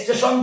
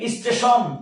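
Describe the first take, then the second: First: The word starts directly with the s sound. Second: A short i vowel comes before the s. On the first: "স্টেশন থেকে" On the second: "রস্বই এসেছে"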